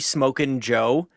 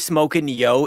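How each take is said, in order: First: The last word starts with a hard J sound. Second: The last word starts with a soft Y sound. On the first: "it's actually Smokin' Joe" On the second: "when I say Smokin' Yo"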